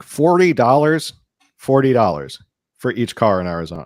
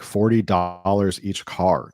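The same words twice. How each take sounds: First: High, loud, stretched-out disbelief; retold astonished outburst; incredulous. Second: Said in the usual way. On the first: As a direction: echo the price in amazement. Retells own shock at low price.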